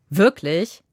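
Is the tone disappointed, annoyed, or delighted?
annoyed. It sounds sharp and annoyed.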